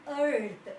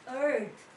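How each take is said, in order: Both takes have the same delivery.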